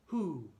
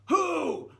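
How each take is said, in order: First: The word is said at normal talking volume. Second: The word is yelled loudly. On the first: The speaker calls it right. "let's do it like a mezzo forte" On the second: The speaker calls it wrong. "Or should we be yelling it?"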